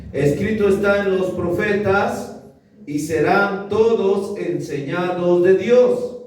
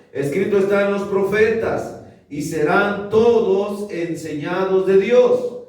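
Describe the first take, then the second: The two takes are said the same way.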